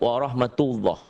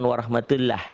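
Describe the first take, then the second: First: The final vowel sounds thick, near O. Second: The final vowel sounds thin, like A. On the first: The speaker calls it right. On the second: The speaker calls it wrong.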